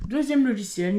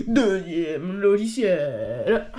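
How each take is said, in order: First: Said in the usual way. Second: « Deuxième logiciel » traîné très lentement avec un rire; étire l'annonce en riant; annonce étirée en riant. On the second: Real, not acted. (présente le deuxième logiciel, en riant et très lentement)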